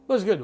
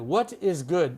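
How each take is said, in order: First: It is fast and contracted, like 'was good'. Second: Each word is said fully, with no contraction. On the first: The speaker calls it right. "What is sounds like was was good" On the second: The speaker calls it wrong. "No one would say what is good"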